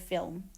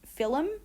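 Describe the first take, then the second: First: No extra vowel is inserted in the word. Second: An extra vowel is inserted inside the word. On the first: "instead of"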